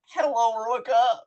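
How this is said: The greeting sounds happy and excited.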